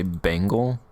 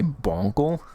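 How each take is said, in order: First: The first syllable sounds like 'ben'. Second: The first syllable sounds like 'bon'. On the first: The speaker calls it wrong. "I always feel weird when I say Bengal" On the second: The speaker calls it right. "apparently that's how you say it"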